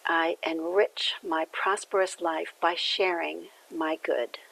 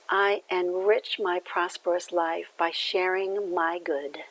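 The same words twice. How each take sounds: First: Slow affirmation, falling to a soft close; repeated affirmation. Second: Affirmation. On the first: Minister repeating the affirmation for listeners to take in, slow. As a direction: say it slowly as your own affirmation, trailing off on good. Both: Shown as a demonstration. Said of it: "the affirmation that comes along".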